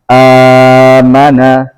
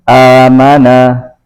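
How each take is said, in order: First: The opening long vowel is held four counts. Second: The opening long vowel is held two counts.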